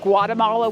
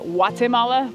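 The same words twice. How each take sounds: First: The word begins with a hard G sound. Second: The word begins with a W sound. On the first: This is how an American says it. "as an American, I pronounce it Guatemala with a G" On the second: This is how local people say it. "the people here seem to pronounce it Guatemala with a W"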